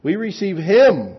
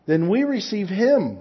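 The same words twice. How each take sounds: First: Slow, louder, him punched hard; We receive him, slow, stress on him. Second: Him leaned on at the end; stress on him. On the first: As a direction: drive home the word him. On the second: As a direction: press the word him. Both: Shown as a demonstration. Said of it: "It's like that emphasis".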